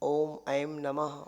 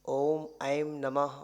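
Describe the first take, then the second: The two takes are said the same way.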